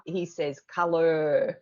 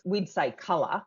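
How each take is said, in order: First: "colour" with the R drawn out long and slow; mocking the American R. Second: "colour" with no R at the end, Australian. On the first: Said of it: "draws his R's out". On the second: Shown as a demonstration. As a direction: drop the R in "colour".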